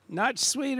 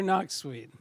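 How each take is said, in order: First: "Not sweet" with a T closing "Not"; checking name pronunciation. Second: "not sweet" with "not" said like "nok"; alternative name pronunciation. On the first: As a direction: say "Not sweet", first word ending in a T sound. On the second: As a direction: say "not sweet", first word ending in a K sound. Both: Shown as a demonstration. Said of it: "Not sweet or not sweet".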